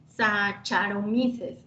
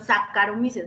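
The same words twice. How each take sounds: First: The 'ch' is said as a 'ch' sound. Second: The 'ch' is said as a 'k' sound. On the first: The speaker calls it wrong. "no se pronuncia Saca, Saccharomyces, no" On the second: The speaker calls it right. "C H se pronuncia K"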